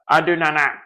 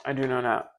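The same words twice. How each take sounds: First: Louder, pressing on "do"; firm. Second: Softly, to herself; quiet. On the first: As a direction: insist on "do", stressed and firm. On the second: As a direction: murmur it low and soft. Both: Real, not acted.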